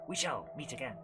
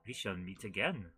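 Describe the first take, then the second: First: It is said in the speaker's ordinary accent. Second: It is said with a put-on French accent. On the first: The speaker calls it wrong. "he wouldn't say it like that" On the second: The speaker calls it right. "Because he's French"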